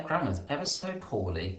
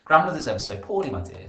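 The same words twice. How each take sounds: First: Said in the usual way. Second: Louder and quicker, Grandmother's at the start; read back louder, faster. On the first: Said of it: "I'm gonna think". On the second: Shown as a demonstration. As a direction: read the line back with energy. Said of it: "I'm just gonna read that back".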